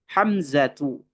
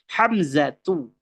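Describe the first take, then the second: No difference in how they are said.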